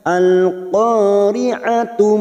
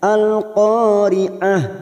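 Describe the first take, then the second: First: The word ends with a voiced 'tu' syllable. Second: The word ends with a stopped 'h' sound. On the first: The reciter joins it to the next verse. "jika digabung dengan ayat yang kedua" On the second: The reciter stops at the end of the verse. "Jika dibaca wakaf setiap ayat maka bunyinya"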